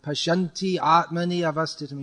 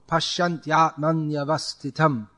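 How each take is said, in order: First: Each word is said separately with full vowels. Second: The words run together without any break. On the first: The speaker calls it wrong. "you add two extra uh, matras" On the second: The speaker calls it right. "It's all one flow. There's no, there's no stopping in between"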